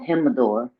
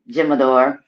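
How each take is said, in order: First: The word begins with a breathy H sound. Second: The word begins with an English J sound.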